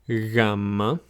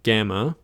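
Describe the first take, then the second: First: The first sound is soft and drawn out. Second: The first sound is a hard, quick G. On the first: This is the Greek name of the letter. "It's a bit softer and a bit, um, I guess, slower to be pronounced" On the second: This is the English name of the letter. "or as we would call it"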